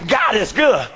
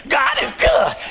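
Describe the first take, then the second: First: Said in the usual way. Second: Mocking stock praise. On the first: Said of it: "Yeah, I know he's good". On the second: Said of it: "you, you just go".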